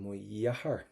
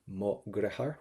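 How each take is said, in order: First: The second word starts with a Y sound. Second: The second word starts with a hard G sound. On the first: The speaker is from further north on the island. "the further up on the island you go, you would probably more give that a Y sound" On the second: The speaker is from the south of the island. "You can pronounce that as the letter G, which is very southern"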